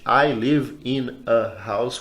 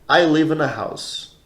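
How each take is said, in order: First: The words are separated by pauses. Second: The words run together without pauses. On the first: The speaker calls it wrong. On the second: The speaker calls it right.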